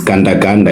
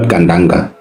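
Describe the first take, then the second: First: "Ganda Ganda" said as two matching words, each ending in -da; correct name pronunciation. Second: "Gandanga" run into one word ending in -nga; mispronounced name. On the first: Panelist correcting her name for the others, firm "Ganda Ganda". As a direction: say "Ganda Ganda" as the same word twice. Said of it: "you must get my name right". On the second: Panelist showing how her name was botched, "Gandanga" as one word. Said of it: "It's not Gandanga". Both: Shown as a demonstration.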